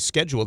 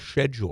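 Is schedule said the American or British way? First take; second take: American; British. First: Schedule is said the American way. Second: Schedule is said the British way. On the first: "over there they don't say schedule" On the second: "they say schedule"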